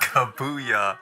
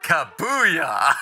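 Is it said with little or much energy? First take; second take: little; much. First: It is said plainly, with little energy. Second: It is said loudly, with much gusto.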